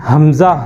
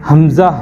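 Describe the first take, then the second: No difference in how they are said.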